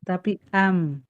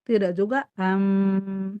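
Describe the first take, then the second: First: The final m is neither stopped nor drawn out. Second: The final m flows on and is drawn out. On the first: The speaker calls it right. "Tidak tertahan dan tidak ngalir" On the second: The speaker calls it wrong.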